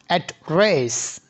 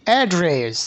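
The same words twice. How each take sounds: First: অ্যাড্রেস said slowly with the stress on the first syllable, American style; drawn-out অ্যাড্রেস, stressing AD; American address. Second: অ্যাড্রেস with the stress on the second syllable, British style; British address. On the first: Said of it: "অ্যাড্রেস শব্দের উচ্চারণ আমেরিকানরা বলে কি". (American উচ্চারণে ধীরে অ্যাড্রেস) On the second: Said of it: "ব্রিটিশরা বলে কি". (ব্রিটিশ উচ্চারণে অ্যাড্রেস) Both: Shown as a demonstration.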